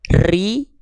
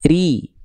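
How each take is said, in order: First: The r is trilled long and heavily. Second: The r is trilled briefly and firmly. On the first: The speaker calls it wrong. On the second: The speaker calls it right. "getarannya sedikit tapi tegas"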